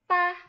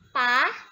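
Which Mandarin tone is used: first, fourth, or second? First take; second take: first; second. First: It is said with the Mandarin first tone. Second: It is said with the Mandarin second tone. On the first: "Nada pertama" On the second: "sekarang kita letakkan nada kedua"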